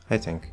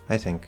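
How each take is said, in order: First: The stress falls on the word I. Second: The same.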